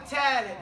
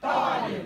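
First: The first t is a light, plain t. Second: The first t is heavy, emphatic and popping. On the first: The speaker calls it wrong. "It's not a T. Right, it's not a talib" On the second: The speaker calls it right. "It pops out harder than any other letter"

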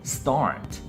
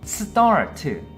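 First: The consonants run together with no added vowels. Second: Extra vowel sounds break up the consonant cluster. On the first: The speaker calls it right. "영어는" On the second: The speaker calls it wrong. "한국어 버전은"

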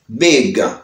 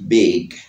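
First: The final g is hard and strong. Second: The final g is soft and light. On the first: This is the British way. "anglais même il dit" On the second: This is the American way. "il dit big, big légèrement"

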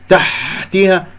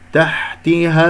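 First: The ha is said with a harsh scrape. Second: The ha is said softly and gently. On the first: The speaker calls it wrong. "هكذا يجعل فيها شحطة، هذه الشحطة غريبة عجيبة" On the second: The speaker calls it right. "الحاء رقيقة لطيفة"

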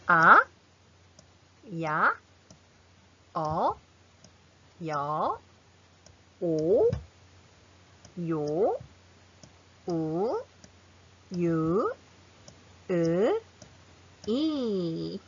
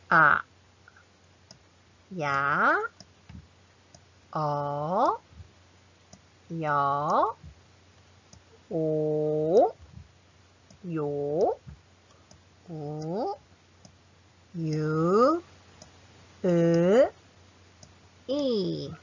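First: The vowels are said quickly in succession. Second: The vowels are said slowly, one by one. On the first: "Much faster" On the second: "let's practice slowly"

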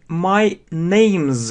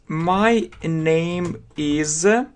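First: Name and is merge into name's with z. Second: Name and is are said as separate words.

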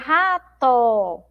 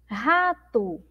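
First: The final vowel sounds like a full 'o'. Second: The final vowel sounds like a 'u'. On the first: The speaker calls it wrong. "Nós escrevemos aí com O, mas a gente não pronuncia rato" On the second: The speaker calls it right. "Nós pronunciamos rato, rato"

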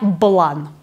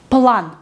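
First: The word starts with a voiced b sound. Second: The word starts with a voiceless p sound. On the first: The speaker calls it wrong. "Не блан. Нет" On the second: The speaker calls it right. "И мы все равно читаем П"

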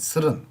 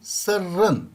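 First: The r sound in the middle is short. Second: The r sound in the middle is doubled. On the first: The speaker calls it wrong. "Bu senin sırın demezsin" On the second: The speaker calls it right. "Ünsüz türemesi var burada. R harfiyle"

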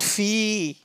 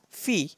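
First: The vowel is stretched out long. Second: The vowel is short and not stretched. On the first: The speaker calls it wrong. "not fi" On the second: The speaker calls it right. "Don't prolong it"

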